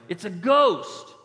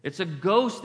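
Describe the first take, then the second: First: Loud, high, drawn-out mock alarm; mock fearful cry. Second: Quicker, understated cry of alarm; mildly alarmed quote. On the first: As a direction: stretch out a hammed-up cry of fright. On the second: Acted. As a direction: report the fright with a touch of alarm. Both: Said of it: "they cried out in fear".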